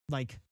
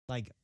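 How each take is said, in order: The two takes are said the same way.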